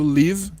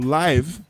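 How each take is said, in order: First: The vowel sounds like 'ih'. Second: The vowel sounds like 'eye'. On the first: It means to reside or be alive. "Mas se eu pronuncio live, é viver" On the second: It means happening in real time. "Se eu pronuncio live, é ao vivo"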